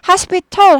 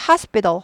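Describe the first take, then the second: First: The t sound is fully pronounced. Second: The t sound is weakened. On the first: The speaker calls it wrong. "하지 않고" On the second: The speaker calls it right. "약화됩니다"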